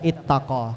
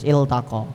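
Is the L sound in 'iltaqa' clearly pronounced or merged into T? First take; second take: merged; clearly pronounced. First: The L sound merges into the following T. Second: The L sound is pronounced clearly before T. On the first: The speaker calls it wrong. "enggak boleh kita baca ittaqa" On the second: The speaker calls it right. "lamnya harus jelas"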